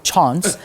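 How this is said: The word is said with a South African accent. "as our South Africans like to call it"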